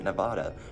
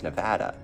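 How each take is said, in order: First: The name is said in a Spanish-style pronunciation. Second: The name is said in the local pronunciation. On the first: It follows the name's Spanish origin. "Spanish name base, which is why I pronounce it Nevada" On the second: It is how people from there say it. "if you ask someone that's from Nevada, they say it's Nevada"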